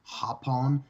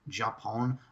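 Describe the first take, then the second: First: The word begins with an H sound. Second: The word begins with an English J sound. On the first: The speaker calls it right. "but it's Hapon" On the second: The speaker calls it wrong. "it looks like Japón"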